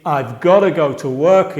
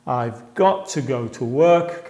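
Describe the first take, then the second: First: "gotta" run together as GAH-duh, one quick word; reduced gotta. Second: "got to" in two clear words, t and "to" fully sounded, a bit slow; full got to. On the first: Teacher showing how natives say it, casual reduced "gotta". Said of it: "y fija la pronunciación, gotta". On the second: Teacher revealing the full form behind gotta, careful and slow. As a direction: spell out "got to" carefully, every sound there. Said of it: "realmente está diciendo". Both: Shown as a demonstration.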